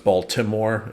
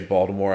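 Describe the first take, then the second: First: The middle consonant is said as a T sound. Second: The middle consonant is said as a D sound. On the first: This is the usual way to say it. "is how you no- normally say it" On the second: The speaker is from around Baltimore. "I it say it with a D, like you would if you were from around there"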